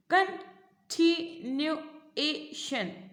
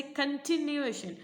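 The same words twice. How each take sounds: First: कंटिन्यूएशन very slowly as CON... TI... NU... A... TION; long gaps between the five parts of कंटिन्यूएशन; split into syllables. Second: Said in the usual way. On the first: Shown as a demonstration. Teacher counting five parts of the word, syllable by syllable. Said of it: "तो इसमें कितने आप". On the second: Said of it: "उसके अंदर same देखो ऐसे".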